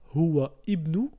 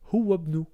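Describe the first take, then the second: First: The second word's first vowel is pronounced separately. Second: The words run together, the vowel dropped. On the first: The speaker calls it wrong. "on va pas dire huwa ibnu" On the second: The speaker calls it right. "mais on va dire huwabnu"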